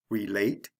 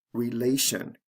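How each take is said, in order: First: "Relate" stressed re-LATE; stress on second syllable. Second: "relation" stressed re-LA-tion; stress on second syllable. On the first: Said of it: "usually falls on the second syllable". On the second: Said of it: "The stress remains on the second syllable". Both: Shown as a demonstration.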